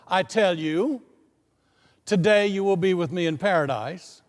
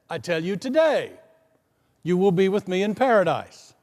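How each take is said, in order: First: The pause comes before the word today. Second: The pause comes after the word today.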